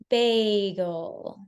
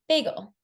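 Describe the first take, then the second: First: The whole word is said slowly. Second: The whole word is said quickly. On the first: "pay attention to my rate when I say it this time" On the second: "how quickly I said it there"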